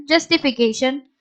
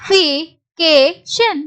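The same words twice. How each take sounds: First: Said in the usual way. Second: Slow, separated syllables. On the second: Shown as a demonstration. Teacher repeats the word for learners, syllable by syllable. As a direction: pause between the syllables of "justification". Teacher sounds out the word's ending.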